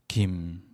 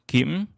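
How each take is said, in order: First: The pitch goes down. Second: The pitch reaches its highest point. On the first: "내려가는 성조" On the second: "가장 높은 음을 내는 성조"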